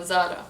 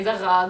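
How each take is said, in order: First: Zara with a tapped R; Lebanese pronunciation. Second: Zara with a throaty French R; French-style R. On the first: Settling on her own version, tapped R in Zara. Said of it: "so Zara". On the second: Rejecting a version she finds weird, throaty R in Zara. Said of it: "but I don't say Zara". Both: Shown as a demonstration.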